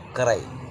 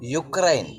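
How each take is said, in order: First: The word begins with an 'oo' sound. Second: The word begins with a 'yoo' sound. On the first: The speaker calls it right. "ദേ pronounce" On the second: The speaker calls it wrong. "Pronunciation യുക്രൈൻ, മനസ്സിലായില്ലേ?"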